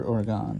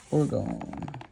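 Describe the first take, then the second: First: Oregon said as "or-GON", open last vowel; alternative pronunciation. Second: Orgone with a long "own" ending; alternative pronunciation. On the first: Presenter offering another way to say it, Oregon ending like "gone". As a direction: end Oregon on "gone" rather than "own". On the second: Presenter naming the week's theme, Orgone said with a long O ending. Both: Shown as a demonstration. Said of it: "however you pronounce it".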